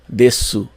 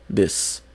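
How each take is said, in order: First: The final u vowel is clearly pronounced. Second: The final u vowel is dropped entirely. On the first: The speaker calls it wrong. "é diferente do som de su, que você provavelmente imaginava" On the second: The speaker calls it right. "Não se escuta o U"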